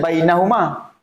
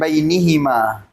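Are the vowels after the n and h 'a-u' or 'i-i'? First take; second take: a-u; i-i. First: The vowels after n and h are a, u. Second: The vowels after n and h are i, i. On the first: This is the original base form. "Asalnya bainahuma" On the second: A preceding letter with kasrah changes the vowels. "dalam ayat ni dia digunakan bainihima"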